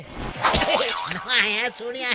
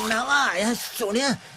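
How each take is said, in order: First: It is said with laughter. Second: It is said in a crying voice.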